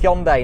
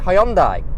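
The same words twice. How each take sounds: First: It is said closer to the Korean pronunciation. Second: It is said in the older English-style way. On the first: This is the pronunciation the brand now wants. The speaker calls it right. "they want us to pronounce it Hyundai now. I believe that is closer to the original uh, Korean pronunciation" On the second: This is the pronunciation the brand now discourages. The speaker calls it wrong. "don't call it Hyundai"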